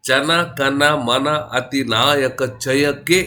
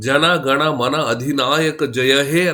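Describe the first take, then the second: First: The second word begins with a voiceless k. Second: The second word begins with a voiced g. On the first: This is how Tamil speakers pronounce it. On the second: This is the standard form.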